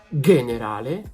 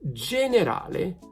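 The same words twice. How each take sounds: First: It begins with a hard g sound. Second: It begins with a soft j sound. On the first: The speaker calls it wrong. "not generale" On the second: The speaker calls it right. "G is gonna be J"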